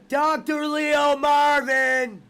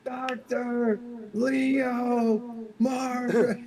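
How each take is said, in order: First: Slow, higher, louder echo of the name; echoed mock voice. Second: Very high, slow drawn-out name; mock movie voice. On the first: Host echoing his cohost's impression, slow mock voice. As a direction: repeat it back laughing, drawn out. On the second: Cohost quoting What About Bob, drawn-out high voice. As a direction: stretch the name out in a silly high voice.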